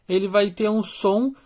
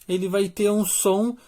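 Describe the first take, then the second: No difference in how they are said.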